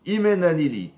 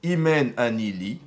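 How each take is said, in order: First: Emphatic quote. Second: Said in the usual way. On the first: Shown as a demonstration. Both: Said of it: "Hillel, il a dit".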